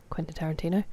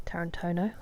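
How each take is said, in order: First: Said in the usual way. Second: "Tarantino" whispered with a rising end; whispered echo. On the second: Shown as a demonstration. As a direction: echo "Tarantino" under your breath, questioning. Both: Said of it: "repeats the name".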